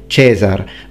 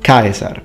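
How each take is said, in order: First: It uses the ecclesiastical Latin pronunciation. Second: It uses the classical Latin pronunciation. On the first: "you say Caesar" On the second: "for the Romans, Caesar"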